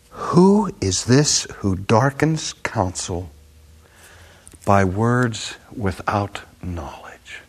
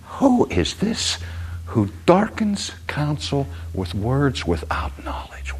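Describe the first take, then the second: First: Slow, measured rebuke fading to a whisper; voice of God. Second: High slow who, then softer, slower whisper; voice of God. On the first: God rebuking Job, slow and sinking to a whisper. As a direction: deliver God's rebuke slowly, then hush. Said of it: "And he said this". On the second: God rebuking Job, rising then hushed. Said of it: "God says". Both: Acted.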